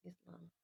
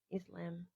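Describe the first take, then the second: First: "Islam" said iz-LAHM, the a open as in father; "Islam" ending in a long open lahm. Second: "Islam" said iz-LAM, the a as in cat; "Islam" with a flat Aussie a as in lamb. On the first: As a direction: try "Islam" with a broad ah vowel. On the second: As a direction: try "Islam" with the short cat vowel, Australian style. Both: Shown as a demonstration. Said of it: "what sounds cooler for the Australian accent?".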